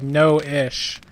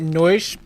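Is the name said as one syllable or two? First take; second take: two; one. First: The name is said as two syllables. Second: The name is said as one syllable. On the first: The speaker calls it right. "So you actually pronounce like no-ish" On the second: The speaker calls it wrong. "I've been saying it Noish"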